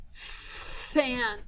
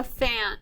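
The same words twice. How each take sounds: First: "Fan" with a long held fff, then an; drawn-out "Fan" to show its opening f; said slowly. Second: Said in the usual way. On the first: Shown as a demonstration. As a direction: stretch the first sound of "Fan". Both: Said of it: "Let's say it slowly".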